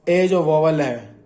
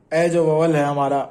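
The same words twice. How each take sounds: First: ए जो vowel है drawn out slowly, जो falling; slow it down to make the point; teacher slowly stressing जो; slow emphasis. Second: Said in the usual way. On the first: Shown as a demonstration.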